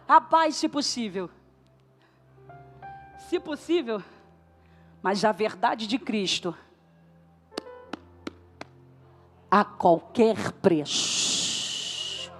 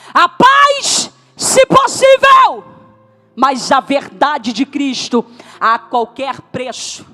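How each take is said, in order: First: It is said at normal volume. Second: It is said more loudly.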